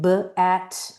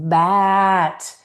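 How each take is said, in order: First: The sounds are split apart with a break. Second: The sounds run together without any break. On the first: The speaker calls it wrong. "so you don't end up with kids doing" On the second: The speaker calls it right. "continuous blending"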